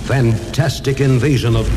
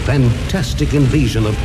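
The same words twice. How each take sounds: The two takes are said the same way.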